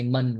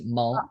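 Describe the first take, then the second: First: The syllable ends with an N sound. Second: The syllable ends with an L sound. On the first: The speaker calls it wrong. "we don't say mun" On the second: The speaker calls it right. "We say mul"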